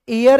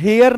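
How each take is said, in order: First: The word begins with a vowel sound. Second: The word begins with an h sound. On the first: The speaker calls it right. "ये एयर है" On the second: The speaker calls it wrong. "ये दोस्तों हेयर नहीं है"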